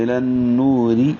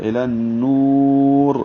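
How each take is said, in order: First: الی النوری recited slowly, with the ر light and thin and joined to the next word; thin ra when joined. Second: الی النور recited slowly, stopping on a thick full-mouth ر; heavy ra on the pause. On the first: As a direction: chant النوری smoothly with a thin ر carried on. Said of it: "ملا کر پڑھتے ہوئے یہ را باریک ہے". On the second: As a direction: chant النور long and end on a heavy ر. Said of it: "وقف کرتے ہوئے یہ را پر ہے". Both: Shown as a demonstration.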